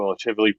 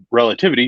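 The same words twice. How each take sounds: First: "relativity" fumbled, the last T slurred away; stumbled word. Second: Said in the usual way. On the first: Real, not acted. Host misreading a chat comment on Einstein, "relativity" stumbled. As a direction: trip over the end of "relativity", losing its T. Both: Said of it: "excuse me".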